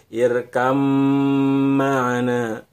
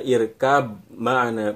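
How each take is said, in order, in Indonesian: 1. Bunyi b menyatu ke dalam m yang panjang dan ditahan. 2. Bunyi b yang jelas terdengar sebelum m. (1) "tapi irkam ma'ana" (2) "bukan dibaca irkab ma'ana, irkab ma'ana, bukan seperti itu"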